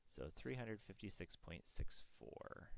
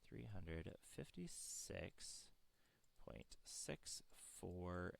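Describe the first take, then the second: First: Said in the usual way. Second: Slow, each number spelled out; slow dictation. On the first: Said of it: "reads answer normally". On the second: Shown as a demonstration. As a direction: read it slowly for notes. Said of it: "repeats answer slowly for writing".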